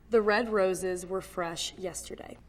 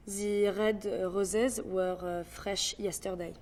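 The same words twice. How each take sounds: First: Said in the usual way. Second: Slow French accent with a filler pause. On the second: Shown as a demonstration. Breaking down how to do it, French accent. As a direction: take it slowly with French R's. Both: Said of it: "how to do a French accent".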